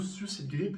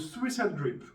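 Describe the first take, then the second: First: It is said with a French accent. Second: It is said with an English accent.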